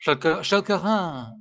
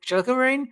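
First: Schelkerane with a French throaty R and open ending; French pronunciation. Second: Schelkerane ending like English RAIN; English-style attempt. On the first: Retrying the name after hearing that it's French, French accent. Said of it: "That's French". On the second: Unsure how to pronounce the German name, Schelkerane ending in RAIN. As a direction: say Schelkerane as SHEL-kuh-rain, tentatively. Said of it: "no idea how to pronounce it". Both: Shown as a demonstration.

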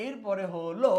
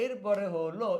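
The two takes are said the same way.

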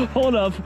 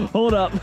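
The two takes are said the same way.

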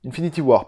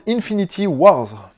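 First: WAR with no final S sound; corrected singular. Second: WARS with a final S sound; mistaken plural. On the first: Correcting the film title, WAR without the final S. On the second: Announcing the Avengers title, WARS wrongly given a final S. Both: Real, not acted.

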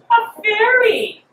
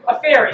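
First: Sung, high, slow sing-song mockery; sung, stretch it out in a mocking singsong; sung mockingly. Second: Said in the usual way. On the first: Sung, Hecate mocking Pomona's answer, high slow sing-song. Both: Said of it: "sang Hecate, mocking".

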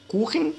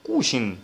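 First: كوخن, middle consonant like Arabic خ; kh sound. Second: كوشن, middle consonant like Arabic ش; sh sound. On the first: Teacher giving the word without umlaut, kh in كوخن. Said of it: "نفس القاعدة بالظبط". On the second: Teacher giving the umlaut version, sh in كوشن. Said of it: "لما بيبقى أوملاوت". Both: Shown as a demonstration.

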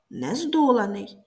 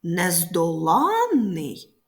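First: Нездоланий with early stress on ДО; нездоланий with an unstressed suffix, weight on ДО. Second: Нездоланний, slowly, with ЛАН stretched and raised; Нездоланний with long stressed АНН. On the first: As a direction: stress ДО and leave ЛА light in нездоланий. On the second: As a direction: hit the late syllable ЛАН in Нездоланний. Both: Shown as a demonstration. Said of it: "коли наголос змінюється".

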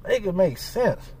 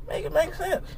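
First: Low, slow, soft flat statement; tired final make it make sense; resigned. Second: High, rising, soft incredulous question; soft rising make it make sense; exasperated plea. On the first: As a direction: drop it low and slow, done with it. Resigned repeat after long pause. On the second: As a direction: lift it up in disbelief. Exasperated demand, first take. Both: Real, not acted.

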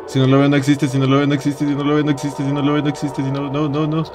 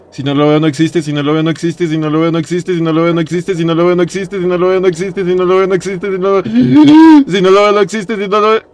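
First: Even, monotone nonstop chant; contained mantra. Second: Nonstop chant rising higher and louder; panicked mantra. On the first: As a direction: repeat it steadily on one note. Same mantra, held in check. (mantra contenido, sin pausas, monótono) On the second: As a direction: repeat without a breath, building to panic. Panicked self-soothing mantra while hiding. (mantra de pánico, cada vez más agudo) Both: Real, not acted.

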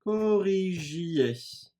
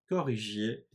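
First: Very slow, higher "Corrigiez"; slow syllabic model. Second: Said in the usual way. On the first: Shown as a demonstration. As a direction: draw out each syllable of "Corrigiez". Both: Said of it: "aynen imparfait'deki gibi çekimleyeceğim".

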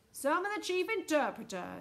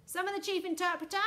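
First: Echoed call. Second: High, loud summons; calling out. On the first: President echoing Miss Tibbs's summons, calling out. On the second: Miss Tibbs summoning the chief interpreter, high call. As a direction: call for someone in a high, raised voice. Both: A narrator's reading.

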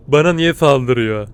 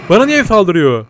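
First: Slow. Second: Surprised. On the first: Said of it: "Bana niye saldırıyor diye sorguluyorum". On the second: Shocked at being attacked. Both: Real, not acted.

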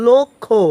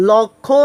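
First: লক্ষ্য with a closed o, "lokkho"; correct pronunciation. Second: লক্ষ্য with an open "aw", "lawkkho"; wrong pronunciation. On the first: Teacher answers the question, লক্ষ্য pronounced "lokkho". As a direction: round the first vowel of লক্ষ্য to o. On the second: Teacher shows what not to say, লক্ষ্য mispronounced "lawkkho". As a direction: open up the first vowel of লক্ষ্য. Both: Shown as a demonstration. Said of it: "না বলে উচ্চারণ করবে কি".

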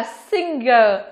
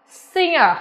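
First: "singer" mispronounced as sing-ger; singer with hard G. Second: "singer" as sing-er, NG only; singer without hard G. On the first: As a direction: say "singer" with an audible hard G after the NG. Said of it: "rất nhiều bạn phát âm như vậy". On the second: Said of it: "Vì vậy mà từ này phát âm là singer". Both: Shown as a demonstration.

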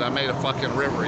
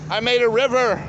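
First: Said in the usual way. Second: Higher, louder, proud of the mess; excited shout. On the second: Real, not acted. Man boasting to camera about his river, excited. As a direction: announce it like a triumph.

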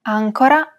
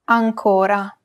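First: "Ancora" stressed on AN, as ÀN-co-ra; stress on first syllable. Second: "ancora" stressed on CO, as an-CÓ-ra; stress on second syllable. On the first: Teacher telling two look-alike words apart, "Ancora" stressed on AN. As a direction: hit the first syllable of "Ancora", leave "co" short. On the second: Teacher telling two look-alike words apart, "ancora" stressed on CO. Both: Shown as a demonstration. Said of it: "distinguish between two words".

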